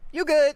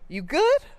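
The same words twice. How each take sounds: First: It sounds casual and dismissive. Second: It sounds caring and concerned. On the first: There is nothing to worry about. "It's fine. Don't worry about it" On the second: The speaker asks whether the listener is okay. "Are you okay?"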